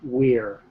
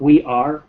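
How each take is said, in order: First: It is said as one short contracted syllable. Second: It is said as two full separate words. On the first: The speaker calls it right. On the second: The speaker calls it wrong. "not we are"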